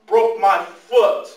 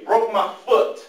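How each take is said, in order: First: "Broke my foot" stretched out slowly and louder; slow emphatic repeat. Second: Said in the usual way. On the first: Real, not acted. Telling the students about his injury, slow and emphatic. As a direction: hammer it home word by word.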